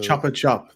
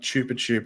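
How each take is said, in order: First: The first vowel is a short 'o' sound. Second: The first vowel is a long 'oo' sound. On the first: The speaker calls it right. "That's how you pronounce it" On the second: The speaker calls it wrong. "not chupa chup or whatever you were saying"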